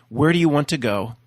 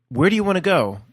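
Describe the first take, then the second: First: It is said in his normal voice. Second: It is said in an imitated Mischief voice.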